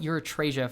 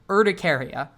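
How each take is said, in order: First: The middle of the word sounds like 'reth'. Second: The middle of the word sounds like 'ti'. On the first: The speaker calls it wrong. "I call it urethrasia for some reason" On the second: The speaker calls it right. "that is the correct pronunciation for hives"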